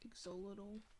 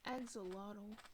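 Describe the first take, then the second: First: The word begins with an 'ek' sound. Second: The word begins with an 'ak' sound. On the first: "it sounds more right to say exolotl to me" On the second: "I know it's pronounced axolotl"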